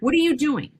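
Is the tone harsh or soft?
harsh. It is said in a harsh, stern tone.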